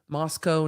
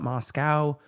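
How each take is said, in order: First: It is said the way locals pronounce it. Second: It is said the way outsiders pronounce it. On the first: The speaker calls it right. "how they pronounce Moscow" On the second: The speaker calls it wrong. "not Moscow"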